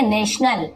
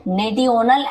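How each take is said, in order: First: नेशनल read with a "sh" sound for the "ti"; correct reading. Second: नेटियोनल sounded out as "ne-ti-yo-nal"; wrong spelling reading. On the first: Teacher showing learners how national is read, नेशनल with a "sh" sound. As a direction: say नेशनल as "NESH-nal". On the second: Teacher warning learners off a misreading, नेटियोनल with "t" instead of "sh". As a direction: say नेटियोनल with a literal "ti-yo" in the middle. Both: Shown as a demonstration. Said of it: "ऐसे नहीं पढ़ेंगे हम".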